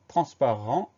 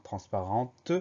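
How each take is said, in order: First: "Transparent" ending on the nasal vowel, no T heard; silent final T. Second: "transparente" with the final T clearly released; sounded final T. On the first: Teacher repeating the masculine word, final T silent. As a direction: leave the T off the end of "Transparent". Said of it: "on a une lettre muette". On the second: Teacher showing the feminine form, final T sounded. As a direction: let the T ring out at the end of "transparente". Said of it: "qu'on va retrouver si on met le mot au féminin". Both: Shown as a demonstration.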